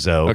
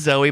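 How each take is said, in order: First: The name is said in a shortened form. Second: The name is said in its full form. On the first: The speaker is on familiar terms with her. "but I call her Zoe ... we're on a shortened name basis" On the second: This is how the name really is. "It is Zoe"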